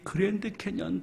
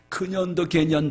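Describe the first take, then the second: First: The name is said in its usual form. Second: The name is garbled into 'geunyeondo gaenyeon'.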